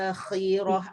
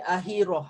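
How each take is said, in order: First: The middle consonant is a harsh rasping kh. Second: The middle consonant is a plain breathy h. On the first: The speaker calls it right. "ada kha dia" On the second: The speaker calls it wrong. "dia akan jadi ha simpul"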